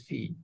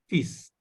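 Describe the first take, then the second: First: The word ends without any S sound. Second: The word ends with a clear S sound. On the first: The speaker calls it wrong. "this will not be pronounced as fee" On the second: The speaker calls it right. "exceptionally, it is pronounced as fees"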